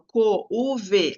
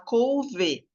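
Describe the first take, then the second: First: The vowels o and u are split apart. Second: The vowels o and u glide together. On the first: The speaker calls it wrong. "a gente não fala assim, não é natural" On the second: The speaker calls it right. "A gente fala couve"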